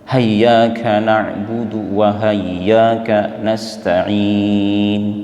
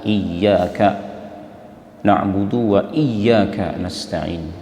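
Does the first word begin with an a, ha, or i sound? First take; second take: ha; i. First: The first word begins with a strong h sound. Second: The first word begins with an i vowel. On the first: "digantikan fathahnya hamzah dengan ha tebal" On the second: "dikasrahkan hamzahnya dan ditasydidkan ya-nya"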